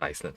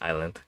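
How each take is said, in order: First: The word is said with an s sound. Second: The word is said without an s sound. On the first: The speaker calls it wrong. "this is a I S land, right? So I naturally thought it's Iceland" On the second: The speaker calls it right. "But no, it's island"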